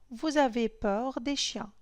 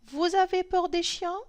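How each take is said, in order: First: It is said with statement intonation. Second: It is said with question intonation. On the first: It states a fact. "C'est une phrase déclarative" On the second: It asks a question. "Quand je change la phrase"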